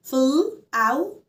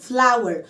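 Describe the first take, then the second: First: "flower" split into fl, ow, er with gaps; sound by sound. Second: Said in the usual way. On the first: Shown as a demonstration. Teacher sounds out flower for learners, in separate pieces. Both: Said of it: "فأنا مقسمة مقاطع".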